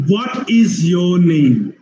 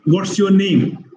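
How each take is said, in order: First: "What is your name" slow, every word separate; slow, measured "What is your name"; full uncontracted form. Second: "What's your name" with What's run together; contracted form. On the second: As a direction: squeeze "What is" into "What's". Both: Shown as a demonstration. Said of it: "What it is".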